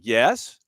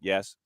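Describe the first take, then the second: First: It is said uncertainly, like a question. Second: It is said flat and deadpan.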